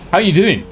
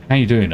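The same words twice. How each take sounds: First: Higher, louder sung-out hello; chirpy greeting. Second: Said in the usual way. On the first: Acted. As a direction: call it out bright and bouncy.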